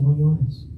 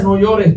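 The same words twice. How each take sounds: First: Soft and gentle, a hand on a weeping friend's shoulder; quietly comforting a grieving person; tender comfort. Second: Said in the usual way. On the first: Shown as a demonstration. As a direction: console someone in tears. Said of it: "le pones la mano en el hombro y le dices". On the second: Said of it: "es esa frase de compasión".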